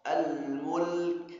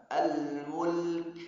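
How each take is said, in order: Both takes have the same delivery.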